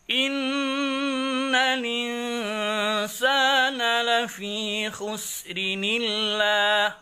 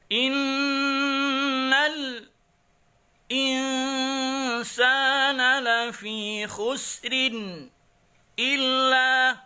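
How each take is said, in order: First: The phrase flows on without brief internal breaks. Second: Brief breaks come before the vowel-initial words. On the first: This follows the first reading tradition. "bacaan qiraat Warsh an-Nafi' menjadi begini" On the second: This follows the second reading tradition.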